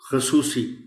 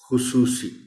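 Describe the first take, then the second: First: The first syllable has an 'a' vowel. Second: The first syllable has a 'u' vowel. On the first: The speaker calls it wrong. "खे पर ज़बर के साथ" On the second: The speaker calls it right. "लफ्ज़ है खुसूसी"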